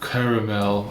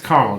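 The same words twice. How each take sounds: First: It is said in a posh, affected way. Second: It is said in a plain, casual way. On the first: The speaker is mocking a pretentious person. The speaker calls it wrong. "they're like" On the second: This is the normal American way to say it. The speaker calls it right. "It's caramel, dude"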